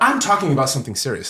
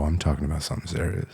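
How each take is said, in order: First: It is said in a plain, ordinary voice. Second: It is said in a low, seductive voice. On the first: "There's the there's the I'm talking about something serious" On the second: "I think the second one might evoke some emotions and feelings"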